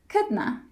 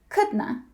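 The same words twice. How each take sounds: Both takes have the same delivery.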